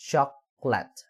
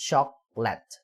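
Both takes have the same delivery.

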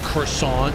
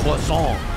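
First: It is said with an English pronunciation. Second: It is said with a French pronunciation. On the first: This is the everyday way people say it. "it's not how you say croissant" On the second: This is the way some insist it should be said. "You're supposed to say croissant"

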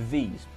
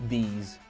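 Both takes have the same delivery.

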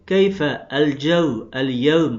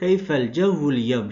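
First: Each word is said separately with its initial vowel. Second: The words run together with the initial vowels dropped. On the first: "Burayı keyfe el cevv el yevm okuyabileceğimiz gibi" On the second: "hemzeler hemzeyi vasıl olduğu için geçiş halinde okunmaz"

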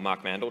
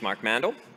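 First: The name is said in an Australian accent. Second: The name is said in an American accent. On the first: "my American or Australian accent" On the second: "my American or Australian accent"

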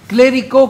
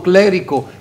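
First: The stress falls on the final syllable. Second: The stress falls before the final syllable. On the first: It names a fruity alcoholic drink. "con el acento en la O" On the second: It names a religious person. "si decimos solo clérigo"

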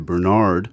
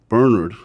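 First: The name is said in an American way. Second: The name is said in a non-American way.

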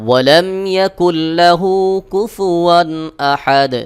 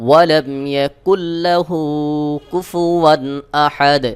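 The two takes are said the same way.

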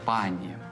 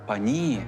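First: The stress is on the first syllable. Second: The stress is on the second syllable. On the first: "звертання «пані» у множині нормативне" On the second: "наголошувати другий склад"

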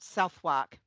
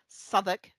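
First: The name is said a non-local way. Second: The name is said the local way. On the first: The speaker calls it wrong. "not Southwark" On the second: The speaker calls it right. "It took TFL's bus lady to teach me that it was Southwark"

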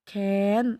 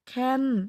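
First: The syllable is said with a high tone. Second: The syllable is said with a falling tone. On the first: "เสียงตรี" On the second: "เสียงโท"

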